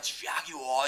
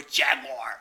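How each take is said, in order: First: "Jaguar" in three syllables, JAG-yoo-ah; British pronunciation. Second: "Jaguar" in two syllables, JAG-wahr; American pronunciation. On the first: Showing how Brits say "Jaguar", drawn out as JAG-yoo-ah. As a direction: draw out "Jaguar" the British way, no final r. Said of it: "the way they say Jaguar". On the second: Showing how Americans say "Jaguar", as blunt JAG-wahr. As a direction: say "Jaguar" with a hard American final r. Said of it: "in America, they go". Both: Shown as a demonstration.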